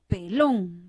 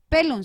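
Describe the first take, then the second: First: The stress is on the last syllable. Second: The stress is on the first syllable. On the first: The speaker calls it right. "si lleva tilde es pelón" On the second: The speaker calls it wrong. "No voy a pronunciar"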